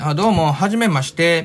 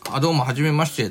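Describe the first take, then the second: First: Kansai-flavoured greeting. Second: Said in the usual way. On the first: Shown as a demonstration. Meeting coworkers, showing off Kansai roots in a light mock Kansai greeting. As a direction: greet like a proud Kansai native. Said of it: "みたいなさ". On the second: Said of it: "とか言った時に".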